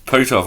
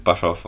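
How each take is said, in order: First: "Potoff" with a long oo in the first syllable; corrected pronunciation. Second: "Buthoff" with a short uh, like butt-off; mistaken pronunciation. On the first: Reader corrects a misread surname, "Potoff" said POO-toff. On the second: Reader quotes their own misreading, "Buthoff" said BUTT-off. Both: Real, not acted. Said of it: "I thought it said Buthoff".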